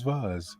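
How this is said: The word is pronounced the non-American way. "Everybody else says vase"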